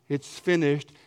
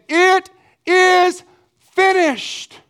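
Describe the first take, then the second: First: It sounds like a sad, defeated cry. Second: It sounds like a loud, victorious shout.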